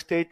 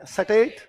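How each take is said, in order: First: The s and t form a tight cluster. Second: An extra vowel splits the s and t. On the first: This is the standard form. "पर हमारे लिए स्टेट नहीं है" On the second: This is how the local people say it. "क्या है? सटेट।"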